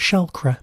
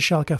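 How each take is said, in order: First: The name is said with an extra R. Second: The name is said without an extra R. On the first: The speaker calls it wrong. "I kept shoving an R in there for no reason" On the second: The speaker calls it right. "I managed to pronounce it correctly for once"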